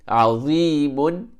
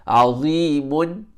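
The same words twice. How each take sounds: The two takes are said the same way.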